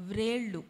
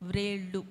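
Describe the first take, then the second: Both takes have the same delivery.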